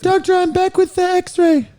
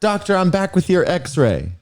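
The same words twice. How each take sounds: First: Squeaky falsetto nurse, far higher; put-on nurse voice. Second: Lightly voiced nurse, higher pitch; nurse role. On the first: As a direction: play the nurse in an exaggerated high voice. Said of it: "We'll have to do voices". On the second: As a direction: play a nurse reporting in, pitched up a little. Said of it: "yes, I'm nurse".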